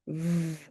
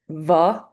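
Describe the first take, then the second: First: The consonant is clipped with no vowel. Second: An uh vowel follows the consonant. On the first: The speaker calls it right. "Here's what they sound like clipped" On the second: The speaker calls it wrong. "That's incorrect, adding the uh sound"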